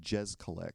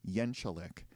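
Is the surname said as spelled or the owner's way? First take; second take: as spelled; owner's way. First: The surname is said just as it is spelled. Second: The surname is said the owner's own way. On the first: The speaker calls it wrong. "pronounces it as it's spelled or how it looks" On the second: The speaker calls it right. "he pronounces his last name"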